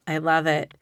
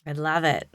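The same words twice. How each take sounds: The two takes are said the same way.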